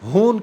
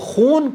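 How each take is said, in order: First: The word begins with a plain breathy 'h' sound. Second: The word begins with a raspy throat 'kh' sound. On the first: The speaker calls it wrong. "खून को हून कहते हैं" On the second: The speaker calls it right. "लफ्ज़ खून है के H double O N"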